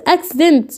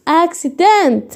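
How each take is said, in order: First: Said in the usual way. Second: "اكسيدنت" slowly, k then s; slow teaching pronunciation. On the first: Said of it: "بقول لك حد عمل حادثه". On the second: Shown as a demonstration. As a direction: stretch out "اكسيدنت" so both sounds show. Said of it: "يبقى اما اجي انطق".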